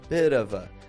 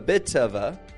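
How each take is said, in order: First: The T in 'bit' is a soft D-like tap. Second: The T in 'bit' is a crisp, strong T. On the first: "T can sound like a bit of a D sometimes. How I just did right there" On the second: "I didn't say a bit of a"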